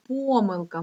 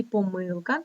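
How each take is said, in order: First: Помилка stressed on ПО; stress on first syllable. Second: Помилка stressed on МИЛ; stress on second syllable. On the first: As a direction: lean on the opening syllable of помилка. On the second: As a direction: lean on the middle syllable of помилка. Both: Shown as a demonstration. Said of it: "це слово має два наголоси".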